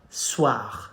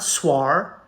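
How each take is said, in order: First: The vowel is pronounced as wa. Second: The vowel is pronounced as separate O and I. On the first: The speaker calls it right. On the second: The speaker calls it wrong.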